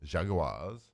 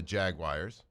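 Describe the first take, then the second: First: "Jaguars" spread out as JAG-u-wahs; slower, deliberate "Jaguars", JAG-u-wahs; careful Jaguars pronunciation. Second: "Jaguars" ending like "wires"; "Jaguars" in two beats, JAG-wires; Jagwires pronunciation. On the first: Shown as a demonstration. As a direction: say "Jaguars" with a separate "u" and an "ah" ending. Repeats the word after being echoed. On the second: Real, not acted. Variant pronunciation, then echoed back.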